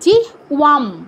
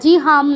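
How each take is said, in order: First: The middle consonant sounds like a w. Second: The middle consonant sounds like a plain h. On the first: The speaker calls it right. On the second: The speaker calls it wrong. "জি হাম নয়"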